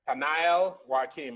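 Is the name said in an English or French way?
English. The name is said in an anglicized way. It is an accepted, easier version of the name. "is fine"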